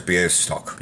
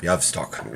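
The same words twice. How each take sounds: First: "Białystok" said roughly as "byeh-stock"; first try at Polish name. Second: "Białystok" said roughly as "yav-stock"; second try at Polish name. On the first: Vlogger reading a Polish team name, "Białystok" as "byeh-stock". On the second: Vlogger retrying a Polish team name, "Białystok" as "yav-stock". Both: Real, not acted. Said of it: "A little bit of Polish".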